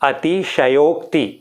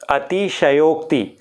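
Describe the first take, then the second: Both takes have the same delivery.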